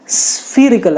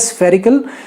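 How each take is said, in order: First: The first vowel sounds like ee. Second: The first vowel sounds like eh. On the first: This is the US form. "US में स्फीरिकल आता है" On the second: This is the UK or Indian form. "स्फेरिकल UK या India में चलता है"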